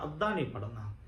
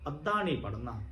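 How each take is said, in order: First: ਅੱਧਾ said lower and much softer, a firm hushed warning; quiet insistent repeat. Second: Said in the usual way. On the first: Shown as a demonstration. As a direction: drop the voice low and soft on ਅੱਧਾ ਨਹੀਂ ਪੜ੍ਹਨਾ. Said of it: "ਉਹ ਵੀ ਸੰਪੂਰਨ ਕਰਨਾ". (ਅੱਧਾ ਨਹੀਂ ਪੜ੍ਹਨਾ ਨੀਵੀਂ ਤੇ ਧੀਮੀ ਆਵਾਜ਼ ਵਿੱਚ ਦ੍ਰਿੜ੍ਹਤਾ ਨਾਲ) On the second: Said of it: "ਸੰਪੂਰਨ ਪੜ੍ਹ ਕੇ ਅਰਦਾਸ".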